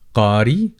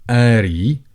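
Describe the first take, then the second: First: The word starts with a deep k sound. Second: The word starts with a glottal stop.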